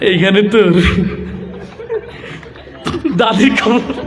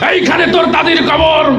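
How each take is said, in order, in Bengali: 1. এটি ভীরু ও দ্বিধাগ্রস্তভাবে আবৃত্ত হচ্ছে, যেন কেউ লাজুক। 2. এটি উচ্চস্বরের রাজনৈতিক বক্তৃতার মতো উচ্চারিত হচ্ছে। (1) "লাজুক একটা যুবক আসছে, তার আবৃত্তির ঢং ছিল এরকম" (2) "নেতাদের তো সবসময় বক্তব্য দিয়ে অভ্যাস"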